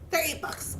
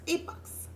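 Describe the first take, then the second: First: Said in the usual way. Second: Quiet whisper of the new price, Eight bucks; whispered correction. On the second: Real, not acted. Crafter spotting the real price, whispering Eight bucks. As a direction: whisper Eight bucks as she reads the tag.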